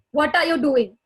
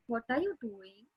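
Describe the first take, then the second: First: Sharp, louder angry demand. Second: Soft, gentle caring question; empathetic. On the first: Teacher demonstrating an angry tone to a child. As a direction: snap the question like you're cross. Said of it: "So that my tone is angry". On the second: Teacher demonstrating a caring, empathetic tone. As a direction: ask it softly, with concern. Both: Shown as a demonstration.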